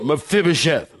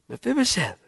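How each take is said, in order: First: The name is called out in a harsh tone. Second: The name is said in a warm tone. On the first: The king is scolding him. The speaker calls it wrong. "did David go" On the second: The king welcomes him with affection. The speaker calls it right. "Just a loving tone in his voice"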